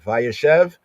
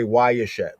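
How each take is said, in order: First: It is said in a Modern Hebrew way. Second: It is said in a Yemenite way. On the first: "Modern Hebrew say Vayeshev" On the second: "We would say Wayeshev"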